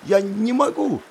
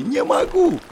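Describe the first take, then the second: First: High scared cry. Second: Very high panicked shriek. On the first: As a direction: plead in panic, pitched up. Terrified student refusing to jump. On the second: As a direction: shriek it in terror. Terrified student repeating refusal. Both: Acted.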